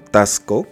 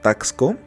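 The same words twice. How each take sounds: First: The x is pronounced as an s. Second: The x is not pronounced as an s. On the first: "X como una S" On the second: "Yo lo pronuncio como Taxco"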